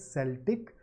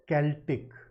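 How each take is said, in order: First: It is said like the team's name. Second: It is not said like the team's name. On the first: The speaker calls it wrong. "I used to pronounce it Celtic because of a particular team" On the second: The speaker calls it right. "this is pronounced Celtic"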